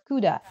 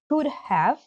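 First: The word 'have' is reduced to a schwa. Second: The word 'have' is said in full.

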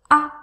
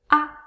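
The two takes are said the same way.

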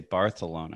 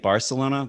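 First: The middle consonant is a th sound. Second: The middle consonant is a plain s sound. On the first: "Everything that's like an S sound, make it a TH sound" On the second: "instead of saying Barcelona"

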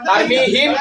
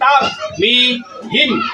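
First: The word is said as one unbroken unit. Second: The word is broken up syllable by syllable. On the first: "তার মি হিম এক ভাগ" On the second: "এগুলো হরফে হরফে উচ্চারণ"

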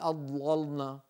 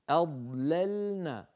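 First: The L sound is heavy and thick. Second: The L sound is light and thin. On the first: The speaker calls it wrong. "ولا نقول أضللنا" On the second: The speaker calls it right. "لا تفخم اللام عند الضاد"

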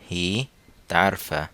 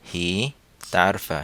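Both takes have the same delivery.

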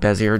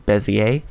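First: The word is pronounced just as it is spelled. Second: The word is pronounced differently from its spelling. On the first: The speaker calls it wrong. "I call it Bezier just because it looks like what it sounds" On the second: The speaker calls it right. "correct pronunciation is Bezier"

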